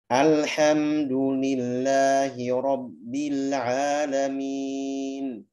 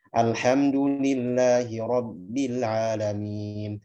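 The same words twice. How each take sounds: First: It is recited slowly with every letter clear. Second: It is recited at a moderate, in-between tempo. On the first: "Bacaan dengan tempo yang pelan" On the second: "Kalau tadwir pertengahan"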